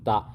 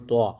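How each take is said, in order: First: A plain light t sound is used. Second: A deep heavy emphatic t sound is used. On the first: The speaker calls it wrong. "ത്വാ വന്നാലും ത" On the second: The speaker calls it right. "ത്വാ വരുമ്പോൾ ത്വാ"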